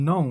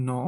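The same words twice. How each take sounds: First: "no" with o sliding into oo; correct pronunciation. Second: "no" with one short o; no glide at the end of "no"; common local pronunciation. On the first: Teacher modelling the correct word, "no" with gliding o-u. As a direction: say "no" as "noh-oo". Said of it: "এটা সঠিক উচ্চারণ হবে". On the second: Teacher showing how we say it, "no" with flat short o. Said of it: "এটাকে আমরা বলি". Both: Shown as a demonstration.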